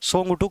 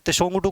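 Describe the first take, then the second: First: The name begins with a plain 's' sound. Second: The name begins with a 'ts' sound. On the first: "टी इसमें साइलेंट होता है" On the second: "त्सोंगटू कहा जाता है हालांकि"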